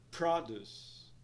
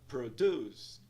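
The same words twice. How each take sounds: First: The stress is on the first syllable. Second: The stress is on the second syllable. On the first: It means fruits and vegetables. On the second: It means to make something.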